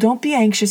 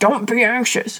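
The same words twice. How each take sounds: First: It is said gently and soothingly. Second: It is said harshly and sternly.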